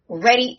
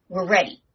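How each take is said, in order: First: Second take louder and higher; hyped rallying call; excited. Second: Said in the usual way. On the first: Acted. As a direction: pump up the table. Hyping the showdown.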